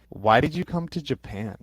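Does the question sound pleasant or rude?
rude. It sounds blunt, with a flat, unfriendly tone. The asker questions why the listener is here at all. The speaker calls it wrong. "like why are you here?"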